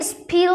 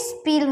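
First: "স্পিল" with a puff of air, like sphil; wrong aspirated p. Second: "স্পিল" with a plain p, no puff; unaspirated p. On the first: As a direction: say "স্পিল" with ফ in place of প. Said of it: "স্পিল হয় নাই". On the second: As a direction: say "স্পিল" with প straight after the s. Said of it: "স্পিল হইছে". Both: Shown as a demonstration.

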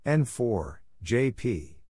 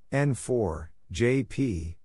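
The two takes are said the same way.

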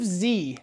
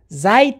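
First: "زی" as zee, long vowel and no final d; "زی" as an open zee; American Zee. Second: "زید" as zayd, ending in d; "زید" as the letter name zed; British-style Zed. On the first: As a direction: say "زی" the American way, rhyming with see. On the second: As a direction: say "زید" with a closing d sound. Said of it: "زید نیست". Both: Shown as a demonstration.

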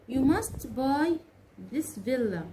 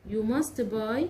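First: Slow, stretched, stress on must; slow model sentence. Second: Said in the usual way. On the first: Shown as a demonstration. Teacher modeling "You must buy" for students, slow and stressed. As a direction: model it slowly for the learners. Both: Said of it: "أقول مثلًا إيه؟".

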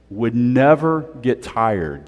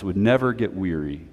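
First: Never stretched slow and falling; slow emphatic never; slow stress on never. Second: Said in the usual way. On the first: Shown as a demonstration. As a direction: draw out never, slowly.

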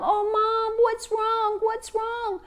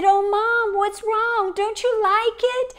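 First: Little ones crowding round their mom; anxious children. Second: Put-on higher child voice, anxious question; a small girl frightened for her mom; worried little girl. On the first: Acted. Children comforting their crying mother, higher child voices. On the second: Daughter asking her tearful mother what is wrong, high child voice.

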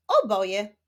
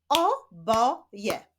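First: Said in the usual way. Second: "O, bo, je" as three separate syllables. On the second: Shown as a demonstration. Teacher leading a reading drill, "O, bo, je" split apart. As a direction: say "O", "bo", "je" with gaps between. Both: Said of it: "Ćwiczmy dalej".

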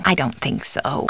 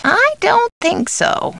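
First: Low, soft disagreement; subdued doubt. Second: Very high, drawn-out doubt; emphatic doubt. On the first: Housekeeper doubting the caller, subdued. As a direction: drop it low and quiet. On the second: Housekeeper doubting the caller, high and drawn out. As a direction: swoop up high and stretch it out. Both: Acted. Alternate takes of stock line.

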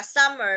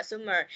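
First: Said in the usual way. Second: "summer" read as "soom-mer"; mispronounced vowel. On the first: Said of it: "Bạn Huyền đọc là summer". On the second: Retold or imitated. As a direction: say "summer" with oo in place of uh. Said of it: "không có đọc là summer".

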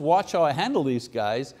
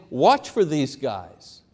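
First: Said in the usual way. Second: Slow, weighty stress on "Watch"; emphatic warning. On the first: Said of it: "It's not just". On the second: Acted. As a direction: hit "Watch" hard and draw out "Watch for these guys". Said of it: "He's saying".

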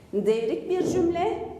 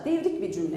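First: Slow repetition, left hanging on a rise; measured pace, more to come; deliberate recap. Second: Said in the usual way. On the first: Real, not acted. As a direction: spell out the clue slowly for the class. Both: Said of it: "Tekrarlıyorum".

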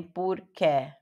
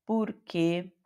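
First: "porque" ending in a wide open "ké"; slow "porque" with the last e open as in "pé"; wrong open-vowel "porque"; open final e, mistaken. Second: "Porque" ending in a tight "kê"; closed-vowel "Porque"; closed final e. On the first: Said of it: "nem porque". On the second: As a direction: say "Porque" with the last e closed, as in "você". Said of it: "é fechado". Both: Shown as a demonstration.

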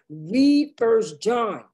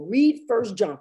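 First: Slow, weighty stress on "read First John"; emphatic repeat. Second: Said in the usual way. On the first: Real, not acted.

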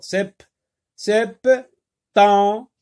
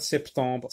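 First: "septembre" broken as sep... tem... bre; high, loud "septembre" with long gaps; syllable by syllable. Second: Said in the usual way. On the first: Shown as a demonstration. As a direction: sound out each syllable of "septembre". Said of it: "Le son en se trouve dans la deuxième syllabe". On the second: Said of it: "dans la deuxième syllabe".

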